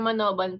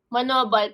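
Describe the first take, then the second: First: The name ends with an N sound. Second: The name ends with an L sound. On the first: This is how the name is actually pronounced. "pero Manoban pag pronounce" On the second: This is how the name is written.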